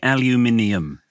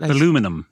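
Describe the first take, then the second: First: The word is said with five syllables. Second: The word is said with four syllables. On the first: This is how the British say it. "We say aluminium. we pronounce every syllable" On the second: This is how Americans say it. "They say"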